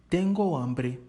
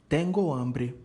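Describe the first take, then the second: The two takes are said the same way.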